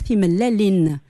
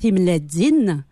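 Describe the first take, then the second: First: The middle consonant is an l sound. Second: The middle consonant is a dz sound. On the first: This is the form used where the speaker married. "là où je suis mariée à Thesmeis, on va dire Thim Lelin" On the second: This is the form used in the speaker's home region. "on parle effectivement en Dza. Donc les œufs vont se dire Timledzin"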